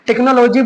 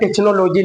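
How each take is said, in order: First: The middle consonant is a 'k' sound. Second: The middle consonant is a 'ch' sound. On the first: The speaker calls it right. "टेक्नोलॉजी बोलेंगे" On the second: The speaker calls it wrong. "बल्कि हम टेक्नोलॉजी नहीं बोलेंगे"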